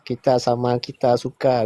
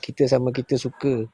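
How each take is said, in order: First: It is said in a formal, spelling-based pronunciation. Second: It is said in a casual, everyday pronunciation. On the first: This is the official standard style, not everyday speech. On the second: This is how people say it in daily life.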